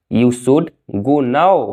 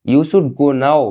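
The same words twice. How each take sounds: First: Slow, careful model sentence; slow and clear. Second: Said in the usual way. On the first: Shown as a demonstration. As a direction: spell it out slowly for learners. (धीरे और साफ़) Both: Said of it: "अब तुम्हें जाना चाहिए।".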